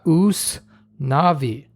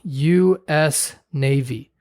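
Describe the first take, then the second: First: The letters are read together as one word. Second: The letters U and S are said separately. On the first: "a Spanish speaker, you would pronounce that" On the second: "he sees on a boat"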